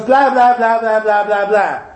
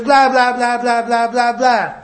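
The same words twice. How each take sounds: First: Lightly imitating a two-year-old's babble; toddler babble. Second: A light mock of a toddler's nonsense talk; toddler babble. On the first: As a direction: babble like a toddler who thinks he's talking. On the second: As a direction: babble again as the child to his mother. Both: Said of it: "And he goes".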